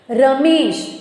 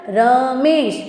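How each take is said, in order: First: Said in the usual way. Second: રમેશ split as ર, then a held મેશ; રમેશ sounded out to show the vowel; sounded-out syllables. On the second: Shown as a demonstration. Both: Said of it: "ઈનો ઉચ્ચારણ થાય છે".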